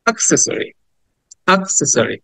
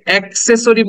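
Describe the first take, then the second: First: "অ্যাক্সেসরি" starting with a quick "uh", not "ae"; "অ্যাক্সেসরি" with a clipped schwa-like first vowel; short "a" opening. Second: "অ্যাক্সেসরি" opening with a wide "ae"; "অ্যাক্সেসরি" said as "AEK-ses-o-ri"; common mispronunciation. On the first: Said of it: "কিছুটা আয়ের মতো". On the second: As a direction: show the old wrong "অ্যাক্সেসরি", "ae" as in axe. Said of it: "আমরা এটাকে অ্যাক্সেসরি বলতাম". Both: Shown as a demonstration.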